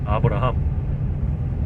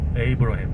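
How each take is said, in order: First: The name is said with Korean pronunciation. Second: The name is said with American English pronunciation.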